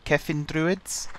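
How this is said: It is said with a put-on Welsh accent. "I should probably stop trying to put on a Welsh accent"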